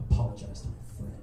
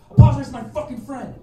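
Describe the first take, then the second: First: Hushed, voiceless retold demand. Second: Loud, high acted yell; furious demand. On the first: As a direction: act out a cold demand in a silent standoff. Menacing demand in a silent standoff. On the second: Dave hits him and demands apology, acted furious yell. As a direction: act out losing patience and yelling the order. Demand escalates after second punch.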